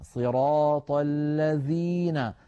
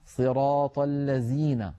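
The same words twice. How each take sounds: First: The word is said with a clear dh sound. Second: The word is said with a z sound. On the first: The speaker calls it right. "لابد من الضغط عليها والبيان إخراجها كاملة" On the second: The speaker calls it wrong. "بحرف الزاي"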